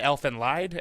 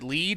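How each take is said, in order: First: The word sounds like English 'lied'. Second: The word sounds like English 'lead'. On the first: The speaker says it this way. "I call it" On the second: Other people say it this way. "some people pr- pronounce it lead"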